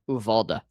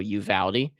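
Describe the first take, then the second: First: The name is said the Spanish way. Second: The name is said the English way. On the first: "closer to the Spanish pronunciation is Uvalda" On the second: "there's two ways that you can pronounce the town name"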